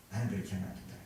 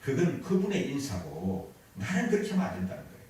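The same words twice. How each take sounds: First: "나는" said softer, self-addressed; 훨씬 작게 "나는 그렇게 하면 안 된다" 되뇌기; quiet, firm. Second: Said in the usual way. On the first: Shown as a demonstration. ("나는"을 조용히 다짐하듯)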